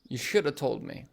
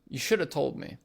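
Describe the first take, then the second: First: Should have is blended into shoulda. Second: The same.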